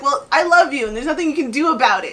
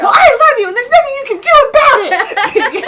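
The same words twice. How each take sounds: First: Put-on louder, pointed retort to a child; quick, forceful comeback at the end; mock mean. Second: High, very loud hammed-up retort; full-volume comic fury; mock mean yell. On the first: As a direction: fire love back as if an insult. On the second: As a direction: scream love at them as if it were hate. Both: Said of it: "a really mean way".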